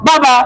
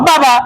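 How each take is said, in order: Both takes have the same delivery.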